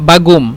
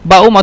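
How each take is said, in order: First: The middle consonant is a g sound. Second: The middle consonant is a glottal stop. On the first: "অথবা গইন" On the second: "উচ্চারণ করে হামজা"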